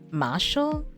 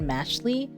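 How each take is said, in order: First: The name ends with an ul sound. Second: The name ends with an ee sound. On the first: The speaker calls it right. "I think it's M- Mashal, like muscle and magic" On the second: The speaker calls it wrong. "I've always said Mashley"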